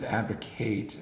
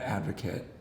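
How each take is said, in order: First: It is said with the verb pronunciation. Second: It is said with the noun pronunciation. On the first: It names the action of supporting a cause. The speaker calls it right. "it's advocate ... it's different because it's a verb" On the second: It names a person who supports a cause. The speaker calls it wrong. "not advocate"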